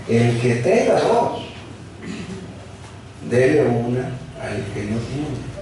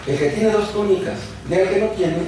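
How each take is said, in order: First: "El que tenga dos" drawn out slowly, every word weighed; slow down and lean on "dele una al que no tiene"; slow emphatic reading. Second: Said in the usual way. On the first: Shown as a demonstration. Verse repeated slowly for emphasis. (lento y enfático, recalcando "dele una")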